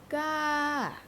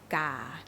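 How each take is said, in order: First: The pitch rises first and then falls. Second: The pitch starts mid and drops slightly lower. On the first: "like when you go up the mountain and you and then you go down again" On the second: "You start here and you end a little bit lower. Huh? This is low tone"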